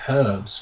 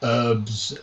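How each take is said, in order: First: It is said with a British pronunciation. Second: It is said with an American pronunciation. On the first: "we say herbs because there's a fucking H" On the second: "they say herbs"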